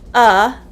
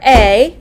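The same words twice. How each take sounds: First: It is said as a short weak schwa 'uh'. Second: It is said as the full letter name 'ay'. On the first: "but it's pronounced as the schwa" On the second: "The letter A"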